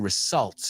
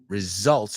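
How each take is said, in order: First: The middle consonant sounds like an s. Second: The middle consonant sounds like a z. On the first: The speaker calls it wrong. "we don't say results" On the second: The speaker calls it right. "Es más como una zeta la S principal ahí"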